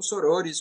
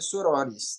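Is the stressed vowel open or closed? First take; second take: closed; open. First: The stressed vowel is a closed o. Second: The stressed vowel is an open o. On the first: "como algumas pessoas falam com a pronúncia mais fechadinha" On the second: "a pronúncia adequada seria sorores"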